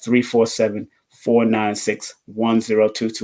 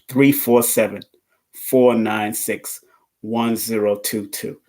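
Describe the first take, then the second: First: It is said at normal speed. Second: It is said slowly.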